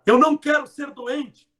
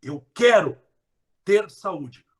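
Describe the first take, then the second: First: Não raised and loud; stress on não. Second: Quero stressed, falling; positive version. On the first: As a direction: push the não. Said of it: "em vez de falar". (ênfase no não) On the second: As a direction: say it firmly. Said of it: "fale de saúde". (quero com firmeza) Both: Shown as a demonstration.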